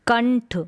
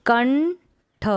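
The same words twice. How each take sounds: First: Said in the usual way. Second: कंठ stretched very slow, syllable by syllable; slow syllable split. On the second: Shown as a demonstration. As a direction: draw out कंठ slowly for the class. (कंठ को बहुत धीरे तोड़कर) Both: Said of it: "पढ़ने का अभ्यास करेंगे".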